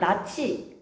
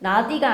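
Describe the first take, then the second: First: The middle consonant sounds like ch. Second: The middle consonant sounds like a d. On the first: The speaker calls it right. "아니라 나치" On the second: The speaker calls it wrong. "나디가 아니라"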